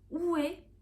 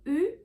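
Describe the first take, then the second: First: The vowel glides from rounded to open. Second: The vowel stays the same throughout. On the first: This is an accepted, easier pronunciation. "il est acceptable de prononcer comme une diphtongue oué" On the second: This is the standard pronunciation. "La vraie prononciation doit être U, une monophtongue"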